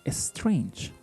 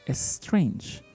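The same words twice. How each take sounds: No difference in how they are said.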